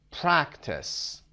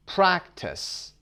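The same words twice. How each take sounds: First: Said in the usual way. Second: Practice whispered with stress on PRAC; whispered demo. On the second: Shown as a demonstration. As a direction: breathe Practice out, leaning on the first syllable. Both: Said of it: "قسمت اول".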